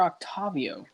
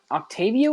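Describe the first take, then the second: First: Octavio with an open AH in the middle; alternative pronunciation. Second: Octavio with a long AY in the middle; alternative pronunciation. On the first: Friend asking which pronunciation is right, broad-A Octavio. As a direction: say Octavio as ok-TAH-vee-oh. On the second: Friend asking which pronunciation is right, long-A Octavio. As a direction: say Octavio as ok-TAY-vee-oh. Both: Shown as a demonstration. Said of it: "Pronounce it either way".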